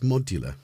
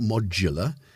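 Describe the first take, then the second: First: The middle consonant is a D sound. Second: The middle consonant is a J sound. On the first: The speaker calls it right. "it's got a D in it, not a J" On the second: The speaker calls it wrong. "It's not modular"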